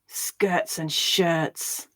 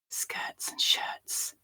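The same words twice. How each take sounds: First: It sounds angry. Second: It is whispered. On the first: "Now angrily" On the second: "So first we'll whisper it"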